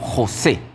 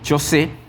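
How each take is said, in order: First: The word starts with a throaty 'h' sound. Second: The word starts with a 'ch' sound. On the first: This form is adapted for a Latin American audience. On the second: This form follows a lexicon aimed at English speakers. "en diccionarios o en léxicos como Strong precisamente aparece como chocé"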